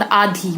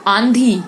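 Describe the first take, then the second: First: आधी with a purely oral AA before DH; no N sound in आधी; no nasal. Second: आंधी with an N before DH; nasal vowel. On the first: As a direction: say आधी as 'aa-dhi'. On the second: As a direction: say आंधी as 'aan-dhi'. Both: Shown as a demonstration. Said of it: "उच्चारण पर ध्यान दीजिए".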